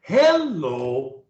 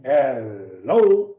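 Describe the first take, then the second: First: HELLO with a high first syllable, then dropping; start up high. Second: HELLO from a low, stretched HEL, jumping up on LO; start low. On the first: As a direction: lift HEL up, let LO fall. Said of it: "you start up high". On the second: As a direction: begin deep, then leap up. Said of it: "either high or low". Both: Shown as a demonstration.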